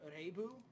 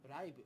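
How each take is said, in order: First: The first vowel sounds like 'ay' in day. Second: The first vowel sounds like 'eye' in live. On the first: It is read as the word is written. "You said it actually correctly" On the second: It is the English word live made Japanese. "he would probably would have said Raibu, which should be spelled R A I B"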